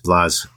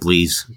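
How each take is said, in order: First: The vowel is short, like 'blahs'. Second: The vowel is long, like 'blaze'. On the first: The speaker calls it right. "it's Blaz, not Blaze" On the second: The speaker calls it wrong. "not Blaze"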